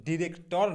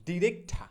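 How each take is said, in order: First: Said in the usual way. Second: ডিরেক্ট ঠা joined, ending in aspirated "tha"; corrected pronunciation. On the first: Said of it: "ডিরেক্টর না". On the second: Shown as a demonstration. Teacher correcting director, ডিরেক্ট ঠা with open final "tha". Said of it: "সঠিক উচ্চারণটা যেটা হবে".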